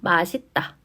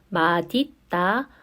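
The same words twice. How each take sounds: First: The final consonant links as an s sound. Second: The final consonant links as a d sound. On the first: "그대로 연음해서" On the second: "디귿으로 바꾼 다음에 연음을 해주어야 합니다"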